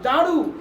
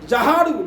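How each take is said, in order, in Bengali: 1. না, আলাদা কোনো 'ha' উচ্চারণ করা হয় না। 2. আলাদা একটি 'ha' উচ্চারণ করা হয়। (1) "জাহারু না" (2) "হে আলিফ কেউ পড়তে যদি যায় তাহলে কি বলবে"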